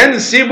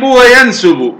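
First: ينسب said "yansibu", i after the sin; kasra on the sin. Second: وينسب said "wa-yansubu", u after the sin; damma on the sin. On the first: Teacher showing the first of two allowed forms, ينسب as "yansibu". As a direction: stretch out ينسب as yan-SI-bu. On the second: Teacher showing the second allowed form, وينسب as "wa-yansubu". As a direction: give وينسب a u vowel: wa-yan-SU-bu. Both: Shown as a demonstration. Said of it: "الضم والكسر".

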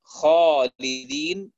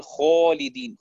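First: Said in the usual way. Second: خالدين said as "xolidin", alif rounded toward o; alif toward waw. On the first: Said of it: "بدل أن يقول". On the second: Shown as a demonstration. Teacher demonstrating the wrong rounded alif in خالدين. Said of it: "يخلط الألف بحرف الواو".

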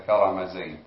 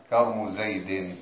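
First: كرم with a vowel on the ر; full vowelled form. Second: كرم with no vowel on the ر, slowly; Tamimi dialect form. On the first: Student giving what the dialect form means, fully vowelled كرم. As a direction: say كرم زيد as "karama Zayd". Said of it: "بمعنى كرم زيد". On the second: Student showing the Tamimi form, vowelless middle ر. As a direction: say كرم زيد slowly as "karmu Zayd". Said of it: "وهي لغة تميمية". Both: Shown as a demonstration.

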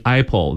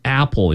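First: "apple" with the first vowel turned to "eye"; Chinese children's mispronunciation. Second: Said in the usual way. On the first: Retold or imitated. Teacher imitating Chinese children learning English, "apple" mispronounced as "eye-pole". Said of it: "millions of Chinese children just saying". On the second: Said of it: "in the right way".

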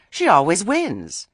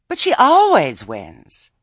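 First: Said in the usual way. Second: "always" drawn out slow and loud; slow, loud insistence on "always"; stress on always. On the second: A narrator's reading. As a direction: lean hard on "always". Lettice repeats it with emphasis.

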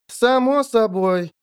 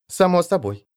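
First: Slow and drawn out. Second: Said in the usual way. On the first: A narrator's reading. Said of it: "подтвердила Шурка Лаль".

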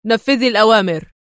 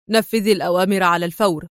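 First: Louder, barked stern command; loud stern order; stern shout. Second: Fast, clipped stern order; quick stern instruction, not raised. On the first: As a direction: shout the order to end the argument. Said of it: "صاح بها في صرامة". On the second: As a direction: rattle off the command briskly. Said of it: "قاطعها في صرامة". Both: A narrator's reading.

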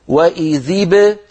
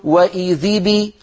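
First: Slow, وإذ ب ending in a vowelless bounce; correct qalqala. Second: Slow, the ب of وإذ بي given a long kasra; wrong kasra ba. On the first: Teacher showing the right qalqala, slow. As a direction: bounce the ب of وإذ ب without a kasra. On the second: Teacher showing the mistake to avoid, slow. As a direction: add a clear i after ب as in بي. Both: Shown as a demonstration. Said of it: "ولا نقول".

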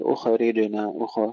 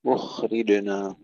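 First: خ of أخرجنا wrongly bounced with a tiny vowel after it; wrong qalqala. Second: خ of أخرجنا held soft and continuous, no bounce; smooth unbroken خ in أخرجنا; soft flowing khaa. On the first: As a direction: say أخرجنا faultily, echoing the خ like "ukha-rijna". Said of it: "لا نقول أخرجنا أخ بالقلقلة". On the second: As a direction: slowly recite أخرجنا, letting the breath run through the خ. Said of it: "وإنما فيها رخاوة". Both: Shown as a demonstration.

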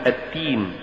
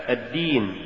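First: "التين" with unvoiced t replacing d; dal becomes ta. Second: Said in the usual way. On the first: Shown as a demonstration. Teacher showing an error, "التين" said with ta for dal. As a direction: devoice the d, giving "التين". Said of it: "تقرأ لحنا". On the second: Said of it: "استبدال الدال بالتاء".

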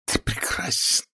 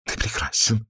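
First: Adoring feminine whisper; hushed, seductive whisper. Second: Soft, high, gasping adoration; panting, amorous mutter; breathless murmur. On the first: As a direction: whisper it high and soft to a lover. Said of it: "прошептала она". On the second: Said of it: "задыхаясь, бормотала она". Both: A narrator's reading.

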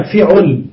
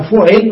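First: "فعل" said fiʕul, i then u; kasra then damma. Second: "فعل" said fuʕil, the reverse pattern, u then i; damma then kasra. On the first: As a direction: say "فعل" with short i on ف and short u on ع. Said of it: "وأين الكسر فضم؟". (نطق "فعل" بكسر الفاء وضم العين) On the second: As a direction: say "فعل" with short u on ف and short i on ع. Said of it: "وزعم قوم إهمال العكس". (نطق "فعل" بضم الفاء وكسر العين) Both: Shown as a demonstration.

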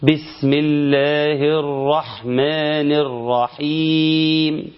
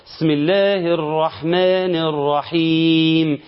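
First: Very slow chant with a clear kasra ب on بسم; slow correct tajwid chant; correct recitation. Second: Slow chant with the ب of بسم left out, "sm"; slowly chanted basmala, swallowing the ب; dropped letter demo. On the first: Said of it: "كسر الباء جيدا". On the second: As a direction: recite بسم with no ب sound. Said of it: "إن أنا ما قرأتش الباء". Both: Shown as a demonstration.

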